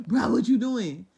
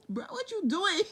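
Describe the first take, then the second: First: Much louder, hammed-up reproach; loud mock God. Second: Much higher, laughing through the words; laughing mock God. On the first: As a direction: belt the question out. God voiced again. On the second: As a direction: giggle the question out.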